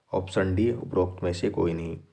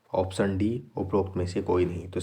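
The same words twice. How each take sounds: The two takes are said the same way.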